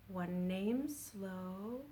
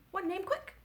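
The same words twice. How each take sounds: First: Very slow, softer. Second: Much higher, snappy; quick. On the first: Children's rhyme, slow line sung drawn-out. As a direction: stretch every word. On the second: Children's rhyme, quick line sung high. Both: Shown as a demonstration.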